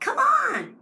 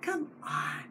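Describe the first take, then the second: First: It sounds eager and encouraging. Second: It sounds exasperated and resigned.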